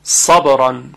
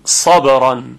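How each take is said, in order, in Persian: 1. اولین حرف صامت یک «س» سنگین و ضخیم است. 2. اولین حرف صامت یک «س» سنگین و ضخیم است.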